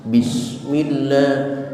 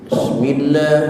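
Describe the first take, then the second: First: The opening b sound is clearly heard. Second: The opening b sound is barely heard. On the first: The speaker calls it right. "ada ba hidup dengan kasrah" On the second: The speaker calls it wrong. "tidak kedengaran b-nya"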